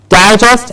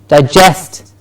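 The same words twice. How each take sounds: First: The stress is on the first syllable. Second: The stress is on the second syllable. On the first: A magazine of collected articles. "Difference in the stressed syllable" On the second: The action of breaking down food. "is the action, the what happens in our stomachs"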